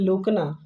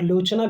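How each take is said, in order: First: The middle consonant is a hard 'k' sound. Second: The middle consonant is a 'ch' sound. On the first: The speaker calls it wrong. "ऐसे ही लोकना कोई-कोई पढ़ देता है" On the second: The speaker calls it right. "लेकिन च पढ़ा जाएगा"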